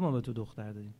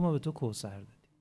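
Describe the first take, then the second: First: Said in the usual way. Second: The word کوثر set apart and weighted; stress on کوثر. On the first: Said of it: "ولی نگفت". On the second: Shown as a demonstration. Preacher shows the verse names کوثر, stressing کوثر. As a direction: lean on کوثر as the real word. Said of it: "گفت".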